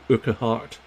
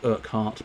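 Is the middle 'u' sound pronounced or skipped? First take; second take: pronounced; skipped. First: The middle 'u' sound is pronounced. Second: The middle 'u' sound is left out. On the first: "You could say Urquhart" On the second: "skip that middle U and go Urquhart"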